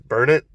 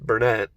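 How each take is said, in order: First: The name sounds just like the words 'burn it'. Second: The name does not sound like 'burn it'. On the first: "My dad says burn it, like you're burning it" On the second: "And my mom says Burnett"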